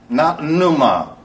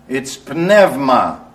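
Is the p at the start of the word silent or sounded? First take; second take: silent; sounded. First: The initial p is silent, starting with n. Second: The initial p is pronounced before the n. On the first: The speaker calls it wrong. "that silly Bible school pronunciation" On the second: The speaker calls it right. "All the letters in the Greek language in a sentence and in a word are pronounced"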